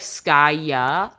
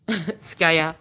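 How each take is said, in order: First: The name is said with relaxed English vowels. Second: The name is said with French vowels. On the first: "in English you'd say more like Skya, like the ahs are more relaxed" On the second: "It's just Skya"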